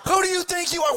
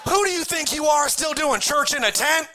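First: Much higher, shouted rebuke; furious shout. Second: Higher, pointed scolding; indignant challenge. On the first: Boat crowd yelling at sinking Peter. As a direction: yell the question at him. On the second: Boat crowd scolding Peter for stepping out. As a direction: call out Peter's arrogance. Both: Retold or imitated. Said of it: "Everybody's in the boat going".

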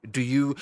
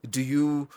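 No difference in how they are said.

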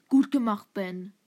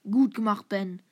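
The two takes are said the same way.

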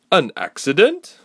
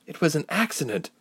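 First: Loud, high, scoffing question; incredulous question. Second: Said in the usual way. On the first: Acted. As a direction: throw the word back in disbelief. Council woman doubts Ilse.

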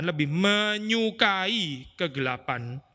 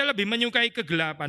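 First: "menyukai" drawn out syllable by syllable; slow right down on "menyukai" for emphasis; stress on MENYUKAI. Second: Said in the usual way. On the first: Real, not acted. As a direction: hammer home "menyukai", stretching it out. Verse repeated to hammer the verb.

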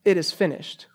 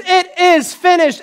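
First: "It is finished" said softly and falling; a soft, reflective echo; quiet. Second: "finished" cried out high and slow; a high, slow triumphant cry; loud cry. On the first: Shown as a demonstration. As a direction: let it drop, hushed. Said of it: "cried out with a loud voice". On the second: Retold or imitated. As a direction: proclaim it with a loud voice. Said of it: "Jesus cried out with a loud voice".

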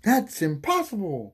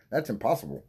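First: High, drawn-out exclamation of disbelief; mock outburst. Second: Said in the usual way. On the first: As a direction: blurt it high and slow, hammed-up. Repeats line in exaggerated voice.

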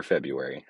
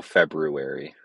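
First: "February" said as "Feb-yoo-ary"; pronounced without R. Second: "February" said as "Feb-roo-ary"; pronounced with R. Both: Shown as a demonstration. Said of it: "nor could I spell February or February".

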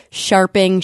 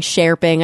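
First: Sharping with "ar" as in "sharp"; alternative pronunciation. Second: Sharping with "air" in the first syllable; alternative pronunciation. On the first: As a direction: say Sharping as SHAR-ping. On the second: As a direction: say Sharping as SHARE-ping. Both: Real, not acted. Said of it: "I don't know how to pronounce".

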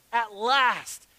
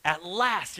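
First: Louder, higher exclamation of relief; exclaimed. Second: Said in the usual way. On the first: Acted. Adam on first seeing the woman, exclaiming. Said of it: "the man exclaimed". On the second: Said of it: "here's what Adam says".

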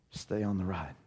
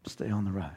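First: Lower, softer, earnest; encouraging. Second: Lower, softer repeat; encouraging. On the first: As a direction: press it gently home. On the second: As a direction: land it softly again. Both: Real, not acted. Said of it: "Can I just encourage you".

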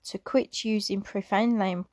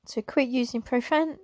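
First: Emotional break. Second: Said in the usual way. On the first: Real, not acted. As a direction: voice catches and stops on profane. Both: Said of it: "Sorry, getting a little bit emotional".

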